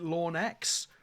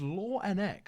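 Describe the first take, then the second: First: The name is said as two parts. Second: The name is said as three separate parts. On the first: The speaker calls it wrong. "Is it Lawn X?" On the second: The speaker calls it right. "It's like F N X, but instead of the F, it's Law"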